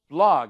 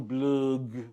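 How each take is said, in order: First: The word is said with an English accent. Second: The word is said with a French accent. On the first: "oh, blog" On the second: "He's French, very French"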